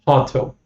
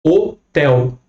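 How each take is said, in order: First: Hotel. said with an English h and clear l; English pronunciation. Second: Hotel. with the stress on tel, no h sound; Portuguese stress. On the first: Teacher showing English pronunciation: hotel. with the h. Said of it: "No inglês". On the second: Teacher showing Portuguese stress: Hotel. stressed on tel. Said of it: "Sílaba tônica aqui no tel". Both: Shown as a demonstration.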